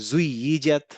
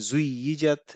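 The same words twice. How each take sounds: Both takes have the same delivery.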